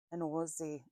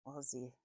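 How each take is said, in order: First: Louder, badly faked Australian "Aussie"; attempted Australian accent. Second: Said in the usual way. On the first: Shown as a demonstration. Reader trying out how Australians say Aussie, clumsy Australian accent. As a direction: try an Australian accent and miss, with a rounded "Ozzie" vowel. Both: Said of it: "I can't do accents".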